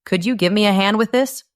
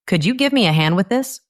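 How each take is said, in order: First: Quick, this rising at the end; rising question tune. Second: This rises at the end, quick pace; rising question tune. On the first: Teacher repeats the question, rising on this. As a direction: ask it with this going up. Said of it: "Let's try it again". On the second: Teacher models a question, rising on this. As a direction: let this go up at the end. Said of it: "It goes up at the end". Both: Shown as a demonstration.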